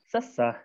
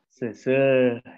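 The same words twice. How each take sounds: First: The vowels are a short, strained schwa sound. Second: The vowels are the unrounded back eu sound. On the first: The speaker calls it wrong. "nganggo e anu kadua jadi seseh" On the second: The speaker calls it right. "Tapi nu lurus nama seseh"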